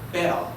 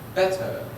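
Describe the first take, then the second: First: It is said in an Australian English accent. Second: It is said in a British English accent. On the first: "And in Australia" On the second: "In the United Kingdom"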